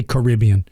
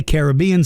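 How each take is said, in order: First: "Caribbean" said kuh-RIB-ee-an, stress on RIB; "Caribbean" as ka-RIB-bee-an; other pronunciation. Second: "Caribbean" said KARE-uh-BEE-an, stress on BEE; "Caribbean" with the long bee stressed; "Caribbean" as care-a-BEE-an; one pronunciation. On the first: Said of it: "some say Caribbean". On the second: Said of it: "some people say Caribbean". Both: Shown as a demonstration.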